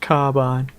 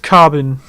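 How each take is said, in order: First: The second syllable has a long I. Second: The second syllable has a reduced vowel. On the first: The speaker calls it wrong. "they don't like it if you pronounce it with a long I" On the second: The speaker calls it right. "carbine is pronounced carbon"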